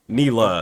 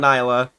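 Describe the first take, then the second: First: The first syllable sounds like 'knee'. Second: The first syllable does not sound like 'knee'. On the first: The speaker calls it right. "Knee, like your kneecap. La" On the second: The speaker calls it wrong. "Don't say"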